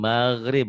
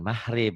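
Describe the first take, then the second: First: The middle consonant is a rough throaty gh. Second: The middle consonant is a soft breathy h. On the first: The speaker calls it right. "maghrib bukan mahrib" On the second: The speaker calls it wrong. "Orang Jawa G-nya jadi H"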